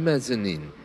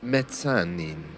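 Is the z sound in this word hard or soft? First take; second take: soft; hard. First: The z is said as a soft z sound. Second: The z is said as a hard dz sound. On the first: It follows the usual English pronunciation. "most of us who don't speak Italian just refer to it as the mezzanine" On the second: It follows the original Italian pronunciation. "which has a harder Z sound"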